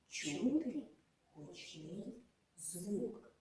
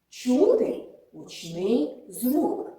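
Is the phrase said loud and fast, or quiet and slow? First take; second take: quiet, slow; loud, fast. First: It is spoken quietly and slowly. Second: It is spoken loudly and quickly. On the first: "Промовимо чистомовку тихо та повільно" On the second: "але цього разу промовимо голосно та швидко"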